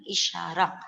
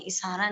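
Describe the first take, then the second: First: इशारा said with a clear sh, ishara; correct pronunciation. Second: इशारा said with a plain s, isara; wrong pronunciation. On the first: Teacher correcting pupils: इशारा with a clear sh. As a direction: model it right: इशारा with sh in the middle. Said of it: "इशारा नहीं". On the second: Teacher showing pupils the wrong way: इशारा with s. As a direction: show the mistake: इशारा with s in the middle. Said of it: "अशुद्ध भाषा में इशारा बोलते हैं". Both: Shown as a demonstration.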